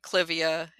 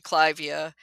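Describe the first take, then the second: First: The first syllable does not sound like 'Clive'. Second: The first syllable sounds like the name 'Clive'. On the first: This is the commonly agreed form. The speaker calls it wrong. "deliberately almost pronouncing incorrectly" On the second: This follows the name it honors. The speaker calls it right. "is actually Clivia, yes, after Lord Clive"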